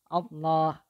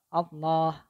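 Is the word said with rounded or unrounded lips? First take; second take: unrounded; unrounded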